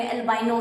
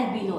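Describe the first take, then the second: First: "एल्बाइनो" with the middle syllable as "बाइ", rhyming with "eye"; alternative pronunciation. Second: "एल्बिनो" with the middle syllable as "बि", an ee-like vowel; preferred pronunciation. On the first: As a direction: say "एल्बाइनो" with a long-i diphthong: al-BYE-no. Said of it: "कुछ लोग एल्बाइनो भी बोलते हैं". ("एल्बाइनो" में बीच में "बाइ" बोलें) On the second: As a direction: say "एल्बिनो" as al-BEE-no, no "eye" sound. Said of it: "proper term होता है एल्बिनो". ("एल्बिनो" में बीच में "बि" बोलें, "बाइ" नहीं) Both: Shown as a demonstration.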